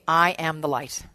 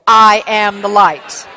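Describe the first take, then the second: First: It is said with ordinary, lower energy. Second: It is said with more energy and gusto.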